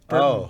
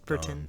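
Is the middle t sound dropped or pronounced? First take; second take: dropped; pronounced. First: The middle t sound is dropped. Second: The middle t sound is clearly pronounced.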